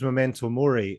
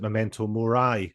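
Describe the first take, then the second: First: The last word ends with an 'ee' sound. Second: The last word ends with an 'eye' sound. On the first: "I always thought it was memento mori" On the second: "he pronounces it memento mori. I think probably because it rhymes with die"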